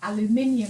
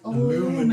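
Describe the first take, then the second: First: The word is said the British way. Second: The word is said the American way. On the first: "I was saying things like" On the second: "and they were like"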